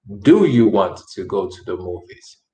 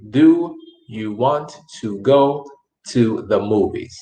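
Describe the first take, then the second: First: Said in the usual way. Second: "Do you want to go to the movies?" slowly, with a pause before "to the movies"; slow and enunciated. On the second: Shown as a demonstration. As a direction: spell it out slowly for learners, leaning on "Do". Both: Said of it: "okay to speak slow and enunciate".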